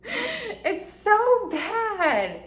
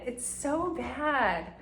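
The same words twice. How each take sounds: First: High and very slow, stretching every word; whiny drawn-out wail. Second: Said in the usual way. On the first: Real, not acted. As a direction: moan it like a cringing confession. Laughing at her own behaviour.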